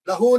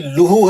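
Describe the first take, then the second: First: The vowel after the L is 'a'. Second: The vowel after the L is 'u'. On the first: The speaker calls it wrong. "लहू नहीं, लहू जबर नहीं है भाई" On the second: The speaker calls it right. "ये लूहू है, लूहू सही करे उसको हमेशा"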